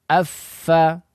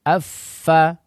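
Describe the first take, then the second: The two takes are said the same way.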